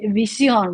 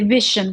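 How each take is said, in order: First: The word is pronounced with Spanish sounds. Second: The word is pronounced with English sounds. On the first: The speaker calls it right. "we say visión" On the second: The speaker calls it wrong. "We don't say vision"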